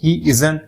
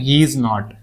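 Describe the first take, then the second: First: Is and not are joined into one word. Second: Is and not are said as two words.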